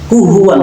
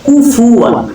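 First: The middle consonant is an h sound. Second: The middle consonant is an f sound. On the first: The speaker calls it wrong. "আমরা কিন্তু সচরাচর ব্যবহার করি" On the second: The speaker calls it right. "এখানে শব্দটা হলো কুফুয়ান"

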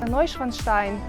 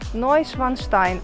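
First: The name is said quickly. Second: The name is said slowly. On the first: "навіть вийшло сказати швидко" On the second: "швидко це не виходить"

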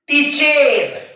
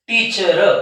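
First: The vowel before r is a clear e. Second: The vowel before r is a neutral uh. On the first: The speaker calls it wrong. "ते विद्यार्थी कसं वाचतील याला" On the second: The speaker calls it right. "या ईचा उच्चार होतो अ"

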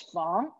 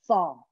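First: The word is said in its changed tone. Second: The word is said in its original tone. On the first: "the changed tone, the fong" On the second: "This is in the original tone"

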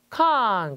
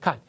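First: The syllable carries a full falling tone. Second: The syllable is light and toneless.

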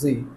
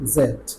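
First: The letter is said as zee. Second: The letter is said as zed. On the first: "এটাকে আবার জি বলে" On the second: "তা আমরা বেশিরভাগই কোনটা বলি? জেড"

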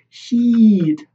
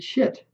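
First: The vowel is long, as in sheet. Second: The vowel is short, sounding like shit. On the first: The speaker calls it right. "Now I'm trying to say sheet" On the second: The speaker calls it wrong. "I used to say shit, right? ... that's the nature of, you know, my accent"

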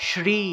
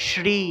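No difference in how they are said.

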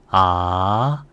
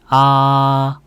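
First: The pitch rises from mid to high. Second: The pitch stays high and level. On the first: "이성은 올려주세요" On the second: "1성은 평평하게 발성하면 돼요"

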